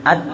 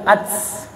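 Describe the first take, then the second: First: "At" with the t held back, no hiss; clean stopped at. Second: "ats" whispered with breath after the t; wrong t as a hissed "ats". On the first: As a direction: cut "At" off sharply at the t. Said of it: "Dan bukan ats". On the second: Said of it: "bukan ats". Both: Shown as a demonstration.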